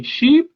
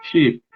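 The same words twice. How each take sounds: First: Sheep with a long, tense ee; long vowel SHEEP. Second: Sheep said as ship, short lax i; short vowel SHIP. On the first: Teacher drilling vowel pairs, long ee in sheep. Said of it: "sheep, oveja, barco". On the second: Teacher drilling vowel pairs, short i as in ship. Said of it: "oveja, barco". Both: Shown as a demonstration.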